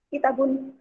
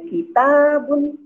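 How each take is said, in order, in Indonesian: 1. Vokal suku kata kedua dipendekkan. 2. Vokal suku kata kedua diucapkan panjang.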